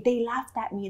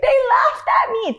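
First: Said in the usual way. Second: High, loud hammed-up blubber; mock crying wail. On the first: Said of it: "That's all I would say". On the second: Telling Hindi teacher through tears, mock crying wail. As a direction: cry it out, exaggerating your hurt. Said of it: "And I would cry".

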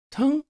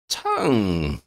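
First: "Tongue" high, short and rising as a question; tentative question. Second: "Tongue" drawn out slowly with a falling end; musing repeat. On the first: Shona guessing the wanderer's missing word, tentative question. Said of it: "Shona ventured". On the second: Wanderer trying out the word he was given, musing repeat. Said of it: "the man repeated". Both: Acted.

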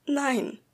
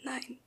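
First: Louder. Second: Very quiet. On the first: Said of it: "wiederholte ich lauter". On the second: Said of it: "erwiderte ich so leise". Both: A narrator's reading.

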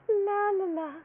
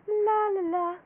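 Both takes have the same delivery.

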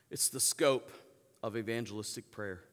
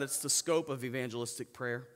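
First: Scope leaned on, then a pause before the rest; stress on scope. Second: Said in the usual way. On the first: Shown as a demonstration. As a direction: land hard on scope and let it hang.

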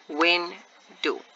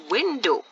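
First: WINDOW broken as WIN ... DOW; split into syllables. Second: Said in the usual way. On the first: Shown as a demonstration. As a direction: say WINDOW in two separate beats, gap after WIN. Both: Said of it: "this word window has two syllables".

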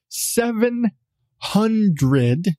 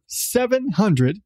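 First: "seven hundred" slowed right down, a pause between "seven" and "hundred"; emphatic repeat. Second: Said in the usual way. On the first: Shown as a demonstration. Podcast host rewinds to stress the tapeworm count, "seven hundred" slow and emphatic. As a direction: draw out "seven", pause, then land "hundred". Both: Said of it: "let's wind that back".

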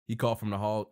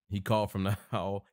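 First: Said in the usual way. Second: Breaking into a laugh mid-line; chuckling through the words. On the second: Real, not acted. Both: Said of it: "He's still in the hall at this point?".

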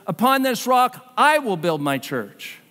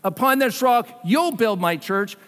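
First: I punched, slowed down; slow, with the stress landing on I. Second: Said in the usual way. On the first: Shown as a demonstration. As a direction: lean on the word I. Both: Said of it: "But not".

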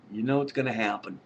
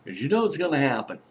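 First: Said in the usual way. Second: Laughing through it, a little fast. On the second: Real, not acted. Vlogger laughing as he warns viewers. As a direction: chuckle the words out quickly. Laughing while repeating a warning.

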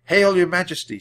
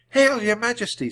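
First: Jack bowing. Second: Annie greeting. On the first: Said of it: "said Jack, bowing". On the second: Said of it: "said Annie". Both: A narrator's reading.

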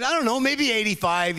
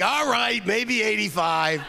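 First: Said in the usual way. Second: Put-on high, slow old comic conceding; Mel Brooks. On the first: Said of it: "I said". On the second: Comedian agreeing over the phone, high and slow. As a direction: savour the number like an old showman. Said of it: "He's like".

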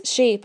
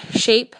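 First: Said in the usual way. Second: Shape? asked with a sharp rise, louder; a father cutting in, baffled; surprised interruption; puzzled question. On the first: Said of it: "I say". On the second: A narrator's reading. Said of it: "my father interrupts".

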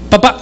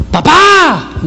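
First: Small, short, tentative call; timid older son. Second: High, stretched, falling holler; younger son calling. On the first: Older son approaching his father, timidly. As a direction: ask for Dad hesitantly, barely starting. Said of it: "Kenji David el mayor me dice". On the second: Nine-year-old summoning his father, calling out high. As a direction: holler for Dad with a long last vowel. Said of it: "y el otro sí dice". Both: Acted.

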